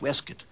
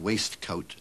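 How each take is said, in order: First: The word is clipped with reduced syllables. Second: Every syllable is pronounced fully as spelled. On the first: "tell people it's pronounced waistcoat" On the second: "put down waistcoat"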